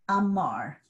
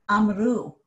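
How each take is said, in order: First: Amar with the stress on the second syllable, mar. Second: Amru with the stress on the final u, said louder. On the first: Teacher showing students the stress: amar stressed on mar. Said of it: "my stress is on mar, the second syllable". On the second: Teacher contrasting the stress shift for students: amru stressed on u. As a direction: say amru and hit the last syllable u. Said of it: "now my stress is on u". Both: Shown as a demonstration.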